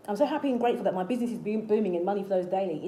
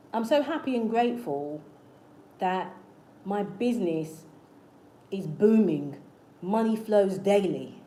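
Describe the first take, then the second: First: Fast, run-together affirmation in one breath; rapid affirmation demo. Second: Slow, deliberate affirmation with pauses between phrases; affirmation demo. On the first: Coach repeating a simple business affirmation, quick and continuous. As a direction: rattle the affirmation off without pausing. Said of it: "an example of an affirmation you can say". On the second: Coach demonstrating an affirmation for your business, slow and deliberate. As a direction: say it phrase by phrase, firmly and slowly. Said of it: "I'm gonna give you an example of an affirmation".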